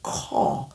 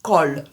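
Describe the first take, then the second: First: "Call" breathed, open "cah" vowel; whispered wrong "Call" with flat vowel. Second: "Call" with rounded vowel and clear L; "Call" crisp, L at the end; right call. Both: Shown as a demonstration. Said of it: "Ce n'est pas call".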